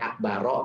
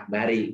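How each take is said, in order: First: The last word ends in an a vowel. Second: The last word ends in an i vowel. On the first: "Bukan akbaro" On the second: "bukan akbari"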